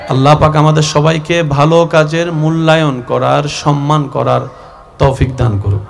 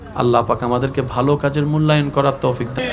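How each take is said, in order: First: It is said noticeably louder. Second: It is said at normal, softer volume.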